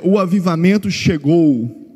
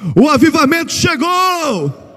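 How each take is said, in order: First: It is said in a flat, plain way. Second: It is said loudly with excitement.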